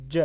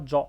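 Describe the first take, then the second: First: JA with an open front vowel, like 'djeh'; correct front vowel in ja. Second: JA with a back, rounded 'o' vowel, like 'djo'; wrong vowel in ja. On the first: Teacher giving learners the correct reading, JA said as 'djeh'. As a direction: say JA loudly as 'djeh', with a d-onset. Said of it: "On dit ja". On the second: Teacher warning learners against a wrong reading, JA said as 'djo'. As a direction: say JA loudly as a dark 'djo'. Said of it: "dit pas ja". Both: Shown as a demonstration.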